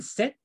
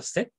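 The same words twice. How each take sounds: First: "sept" said with the P left silent. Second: "set" said with no P, a clean short set; pronounced set. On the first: Teacher showing how "sept" sounds, P silent. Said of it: "no se pronuncia la P intermedia". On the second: Teacher showing the class "set" said with no P. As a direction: drop the P and say just "set". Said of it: "nada más pronuncio set". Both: Shown as a demonstration.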